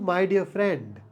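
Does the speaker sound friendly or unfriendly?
friendly. It is said in a warm, friendly tone. The words are meant sincerely.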